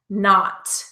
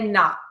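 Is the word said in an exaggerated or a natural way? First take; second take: exaggerated; natural. First: The word is said in an exaggerated, careful way. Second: The word is said in a relaxed, natural way. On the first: "I'm saying not a little exaggeratingly" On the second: "Normally, I would say not"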